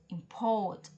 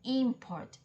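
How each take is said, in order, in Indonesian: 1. Tekanannya ada di suku kata kedua. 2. Tekanannya ada di suku kata pertama.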